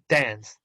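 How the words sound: The vowel is the short a of cat. "American es la de Batman"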